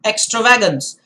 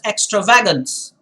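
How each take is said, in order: First: The stress is on the syllable va. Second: The stress is on the syllable va.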